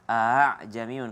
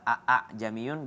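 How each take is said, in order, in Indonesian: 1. Hamzah kedua dilunakkan, tidak diucapkan penuh. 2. Dua hamzah penuh diucapkan berturut-turut. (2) "double hamzah"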